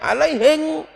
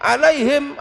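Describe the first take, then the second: First: The word ends with an 'ng' sound. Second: The word ends with an 'm' sound.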